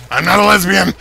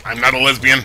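First: Raised-voice protest; emphatic denial. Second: Said in the usual way. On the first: Real, not acted. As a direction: insist on it, punching it out. Same denial repeated emphatically.

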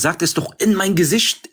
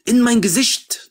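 First: Said in the usual way. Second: "in mein Gesicht" drawn out slowly, pitched higher; insistent repeat. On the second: Real, not acted. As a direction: lean hard on "in mein Gesicht", slow and high.

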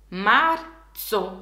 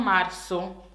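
First: Marzo with a clear ts sound, "mar-tso". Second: Marzo said wrongly with a plain s, "mar-so"; the wrong way: marzo with an s sound. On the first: Teacher modelling marzo with ts, not s. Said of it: "con la Z, with Z, non S". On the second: Teacher showing the wrong s in marzo. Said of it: "non marzo". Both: Shown as a demonstration.

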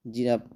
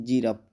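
Both takes have the same delivery.

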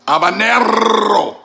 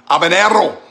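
First: Habanero slow, high, with a long trilled R; Habanero, hammy Spanish trill; exaggerated rolled R. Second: Habanero with a rolled R, loud and high; Habanero, trill the R hard. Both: Shown as a demonstration. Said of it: "you don't roll the R".

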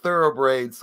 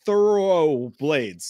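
First: Thoroughbraids with r in place of l; tripping on thoroughblades, saying thoroughbraids; botched thoroughblades, said as thoroughbraids; flubbed tongue twister. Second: Thoroughblades said slowly with a clear l; carefully fix it to Thoroughblades; slow deliberate correction of the word; corrected pronunciation. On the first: Real, not acted. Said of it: "Holy shit". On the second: Shown as a demonstration. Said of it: "so I could fix it".

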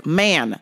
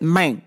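First: Said in the usual way. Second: "Man" said like "mane"; customer's drawn "mane". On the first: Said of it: "So she hears". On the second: Retold or imitated. Imitating the customer's word to explain a mix-up, "Man" as "mane". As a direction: pronounce "Man" with a long ay, as in "main". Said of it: "because he said".

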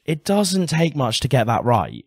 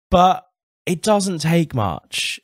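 First: Said in the usual way. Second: Doesn't drawn out slowly, each word weighted; slow emphatic stress. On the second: Real, not acted. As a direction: lean hard on doesn't, slow and deliberate.

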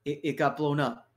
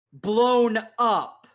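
First: Said in the usual way. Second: "blown up" thrown back louder, with scorn; mocking quote. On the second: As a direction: quote his words back at him, sneering. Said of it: "and I quote".

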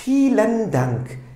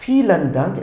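First: Slow and careful, a little higher; deliberate teacher pronunciation demo; slow model reading. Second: Said in the usual way. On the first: Shown as a demonstration. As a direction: say it slowly so the class can repeat. Teacher models the German phrase.

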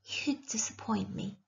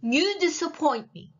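First: Hushed, soft judgement; whisper. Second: Higher-pitched, voiced condemnation; disapproving witch. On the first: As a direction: lean close and murmur it softly. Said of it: "She whispered". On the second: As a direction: pass judgement aloud on the princess. Witch passes judgement aloud. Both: A narrator's reading.

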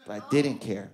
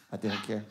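First: Said in the usual way. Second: Said much softer, almost to himself; a soft private afterthought; quiet, trailing repeat. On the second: Shown as a demonstration. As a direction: let it fade away under the breath. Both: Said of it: "Yeah, I didn't care".

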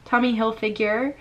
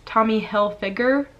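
First: "Hilfiger" as "Hil-fig-yer"; mispronounced Hilfiger. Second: "Hilfiger" with a hard g, "Hil-fig-er"; no y-sound in "Hilfiger"; correct Hilfiger. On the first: Vlogger repeating her slip to viewers, "Hilfiger" with a y-glide. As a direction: end "Hilfiger" like the word "figure". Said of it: "I said Tommy Hilfiger". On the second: Vlogger showing the corrected name, "Hilfiger" as "Hil-figger". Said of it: "telling me the right way to say". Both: Shown as a demonstration.

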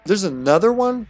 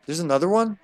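First: High, loud incredulous question; raised voice, can't believe it; louder disbelief. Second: Mildly incredulous question, a bit higher; a touch taken aback; surprised. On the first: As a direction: exclaim it in exasperated surprise. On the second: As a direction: ask it with rising disbelief. First surprise at another enemy. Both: Real, not acted.

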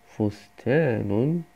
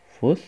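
First: Said in the usual way. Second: فستان broken into three syllables, fus, taa, nun; split into syllables. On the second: Shown as a demonstration. Teacher breaks a word into syllables for first-year pupils, فستان in separated syllables. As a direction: say فستان syllable by syllable with long pauses between. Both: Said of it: "وأجزئها إلى مقاطع".

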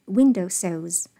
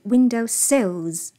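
First: Slow "window sills", "window" strong, "sills" light; correct stress. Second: "window sills" with the wrong word stressed; mock the student's stress on "window sills"; imitating wrong stress. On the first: Shown as a demonstration. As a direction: lean on "window" like "village inn". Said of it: "轻重读和前面这个village inn是一样的". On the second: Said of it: "不是window sills".

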